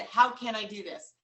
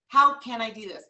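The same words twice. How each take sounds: First: Steady and determined; firm self-question. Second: Louder, punched and emphatic; louder, stronger take. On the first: Coach repeating her own phrase, steady and determined. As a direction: ask it with conviction. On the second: Coach repeating her own phrase, louder and emphatic. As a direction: drive it home harder. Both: Shown as a demonstration. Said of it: "you know what [name] said".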